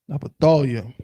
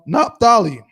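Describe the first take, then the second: First: The name ends in a 'yah' sound. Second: The name ends in an 'ee' sound.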